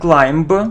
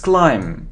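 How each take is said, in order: First: A B sound is heard at the end. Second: No B sound is heard at the end. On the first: The speaker calls it wrong. "It isn't climb" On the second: The speaker calls it right. "we don't pronounce be"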